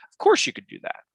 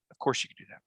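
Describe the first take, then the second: First: "course" pitched much higher in "Of course you could do that"; emphatic. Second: "Of course you could do that" said lower and softer; quiet repeat. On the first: Host insisting to listeners, high emphatic "Of course". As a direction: ring out "Of course" high and sure. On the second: Host repeating the point to listeners, lower and softer. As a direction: drop it down as a calm aside. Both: Shown as a demonstration.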